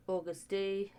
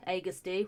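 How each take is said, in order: First: "August D" with an AW opening vowel; mispronounced August D. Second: "Agust D" opening on an AY vowel; corrected Agust D. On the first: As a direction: say "August" like the month, AW-gust. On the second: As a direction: say "Agust" as AY-gust. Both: Real, not acted. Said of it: "why did I say August D?".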